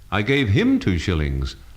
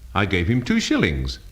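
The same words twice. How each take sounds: First: The stress falls on the word him. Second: The stress falls on the word shillings. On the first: It went to this person, not another. "not the other fellow" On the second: The coins were shillings, not pounds. "not pounds"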